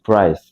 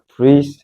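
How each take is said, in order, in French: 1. Le mot est prononcé à l'anglaise. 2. Le mot est prononcé à la française. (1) "mais on dit price" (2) "on dit pas price"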